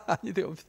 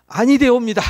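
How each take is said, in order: First: 아니 되옵니다 said again, softly and lower, after a laugh; preacher repeats the warning quietly, amused. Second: 아니 되옵니다 blurted out loud, with a falling stress on 아니; preacher exclaims the warning loudly; emphatic loud. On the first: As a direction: echo 아니 되옵니다 under the breath, amused. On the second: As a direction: declare 아니 되옵니다 forcefully, in mock-archaic tone. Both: Shown as a demonstration.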